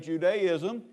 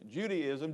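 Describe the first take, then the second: First: The first part sounds like 'Jew'. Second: The first part sounds like 'Judy'. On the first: The speaker calls it right. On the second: The speaker calls it wrong. "how I've said Judaism all my life"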